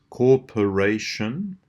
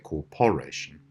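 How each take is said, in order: First: The second syllable has a weak schwa. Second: The second syllable has a full vowel. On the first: The speaker calls it right. "this time as well the p" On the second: The speaker calls it wrong. "We don't say corporation"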